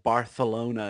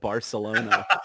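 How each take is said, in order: First: The c is said with a lisped th sound. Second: The c is said with a plain s sound. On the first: "make fun of him for saying Barcelona" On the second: "instead of Barcelona"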